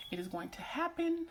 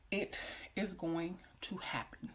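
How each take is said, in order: First: Same vow lifted much higher; high-pitched insistence. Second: Slow and measured, softer; slow, deliberate affirmation. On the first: Vlogger repeating what she has prayed for, high and insistent. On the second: Vlogger assuring herself her prayers will be answered, slow and deliberate. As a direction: spell it out slowly and quietly. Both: Real, not acted.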